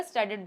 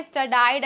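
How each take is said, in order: First: "स्टडीड" ending in "-id"; correct pronunciation. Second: "स्टडाइड" ending like "died"; wrong pronunciation. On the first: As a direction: model "स्टडीड" without any "eye" sound. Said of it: "स्टडीड बोलते हैं". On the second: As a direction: demonstrate the error "स्टडाइड" with an "eye" vowel. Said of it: "ऐसा कुछ मत बोलिएगा". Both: Shown as a demonstration.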